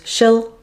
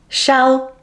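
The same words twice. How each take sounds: First: The word is said in its reduced weak form. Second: The word is said in its full strong form.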